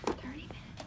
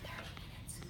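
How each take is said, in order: First: Teacher whispering back; soft whispered echo. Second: Unvoiced whispered answer; whispering. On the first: Shown as a demonstration. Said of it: "In your whisper voice". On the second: Real, not acted. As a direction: whisper it to the teacher. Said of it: "In your whisper voice, tell me".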